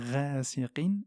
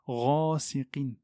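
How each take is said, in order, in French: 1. La première consonne est légère et fine. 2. La première consonne est lourde et pleine. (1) "pas rasiqin" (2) "Le rein est une lettre emphatique"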